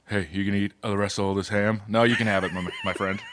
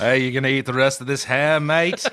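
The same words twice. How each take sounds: First: Lower, softer big-man voice for Shaq, almost [name] British. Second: Put-on British accent. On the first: Pretend. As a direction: play Shaq low and quiet, a hint of Liverpool. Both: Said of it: "Shaq sounds a lot like [name]".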